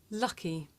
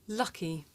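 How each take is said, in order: The two takes are said the same way.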